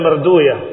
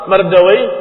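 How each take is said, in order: First: The name ends with a 'uya' sound. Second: The name ends with an 'awai' sound. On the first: This form avoids the word 'wai', which has a bad meaning. "didomahkan di awalnya" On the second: This is the original form of the name. "asal katanya Mardawai"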